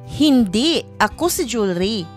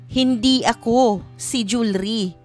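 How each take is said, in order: First: There is a pause right after the first word. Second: There is a pause right after the second word. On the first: "Pagbigkas ito na ang hinto ay pagkatapos ng hindi" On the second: "Pagbigkas ito na ang hinto ay nasa ako"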